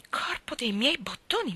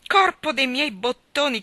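First: Hushed, unvoiced "Corpo dei miei bottoni"; shocked whisper of the boy's oath. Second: Loud, higher, slow "Corpo dei miei bottoni"; roaring boy's oath, slowed for effect; laughing oath. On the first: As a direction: gasp the oath under your breath. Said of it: "esclamò Tom". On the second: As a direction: bellow the oath in mocking glee. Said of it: "dal gran ridere". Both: A narrator's reading.

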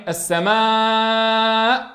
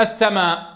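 First: السماء with the final aa held very long and steady before the hamza; extended madd. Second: السماء with the final aa kept short, hamza dropped; natural madd only. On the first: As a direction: stretch the last vowel of السماء far beyond natural length. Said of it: "طولنا الصوت زيادة عن الطبيعي". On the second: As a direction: say السماء as as-samaa, without extra lengthening. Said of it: "لكن لم نسمع الزيادة". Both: Shown as a demonstration.

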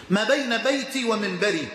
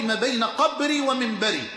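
First: بيتي given the weight at the end of the phrase; stress on بيتي. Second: قبري hit firmly as the contrasting word; stress on قبري. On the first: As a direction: lean on بيتي, not قبري. (التشديد على كلمة بيتي) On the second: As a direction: push قبري to show what was not said. (التشديد على كلمة قبري) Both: Shown as a demonstration. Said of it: "ولم يقل".

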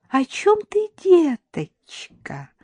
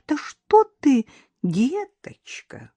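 First: High, sugary, drawn-out question; honeyed. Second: Slow, drawn-out words dropping to a hush; icy menace. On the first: Mother-in-law playing innocent to Karina, honeyed. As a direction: coo it innocently, stretching the endearment. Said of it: "прежним медовым голосом осведомилась Шурочка". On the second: Mother-in-law warning Karina off her son, icy. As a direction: stretch it coldly, let the endearment fade. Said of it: "голос свекрови прозвучал, как скрип железа". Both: A narrator's reading.

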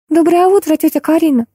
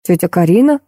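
First: Put-on high girlish twitter; chirping. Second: Puzzled question with a rising end; understated surprise in an ordinary pitch; surprised. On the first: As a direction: chirp a greeting brightly to an aunt. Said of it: "зачирикала гостья". (щебечущий высокий девичий голосок) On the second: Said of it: "удивился Миша". (сдержанно удивлённый вопрос) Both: A narrator's reading.

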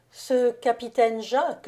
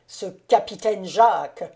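First: Composed reply, lifting on the name; pitying calm. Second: Loud jealous accusation, ending on a fall; accusing. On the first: Countess answers her accusing husband with pity, calmly. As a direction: take up the name calmly, rising at the end. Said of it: "d'un air de pitié". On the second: Jealous count questions his wife about the Frenchman, accusing. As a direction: throw the name out as an accusation. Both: A narrator's reading.

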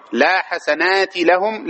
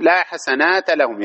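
First: "حسنات" ending in short i, hasanati; kasra ending. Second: "حسنات" ending in short a, hasanata; fatha ending. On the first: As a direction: say "حسنات" slowly with a final -ti. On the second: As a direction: say "حسنات" slowly with a final -ta. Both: Shown as a demonstration. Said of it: "يجوز هذا وهذا".

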